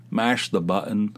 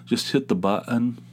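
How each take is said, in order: First: "button" said with a clear T; plain "button" with its T; Southern mash. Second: "button" said "bu'on" with no T; dropped T's. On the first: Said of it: "where you say mash". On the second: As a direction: swallow the T in "button". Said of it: "They don't say the T's". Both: Shown as a demonstration.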